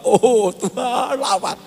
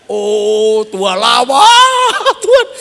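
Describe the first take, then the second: First: Slow, hesitant prayer that fades out at the end; unsure prayer. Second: Slow, louder and higher, rising on "Tuhan"; confident prayer. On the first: Preacher imitates his own doubtful first prayer, hesitant. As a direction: pray it without believing it. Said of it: "Kamu tidak yakin ya?". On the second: Preacher redoes the prayer with conviction, loud and slow. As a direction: proclaim it like you truly believe. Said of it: "Supaya ya yakin". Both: Retold or imitated.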